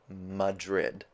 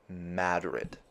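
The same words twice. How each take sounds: First: It is pronounced like the Spanish capital. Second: It is pronounced unlike the Spanish capital. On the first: The speaker calls it wrong. "It's not Madrid, like the place in Spain" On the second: The speaker calls it right. "It's Madrid"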